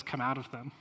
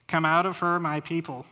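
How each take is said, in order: First: Said in the usual way. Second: Loud proclamation. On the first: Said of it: "God says". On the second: Acted. Preacher reads God's call to His people, loudly proclaiming. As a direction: Come out of her called out loud and high.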